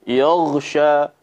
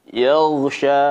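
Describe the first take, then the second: Both takes have the same delivery.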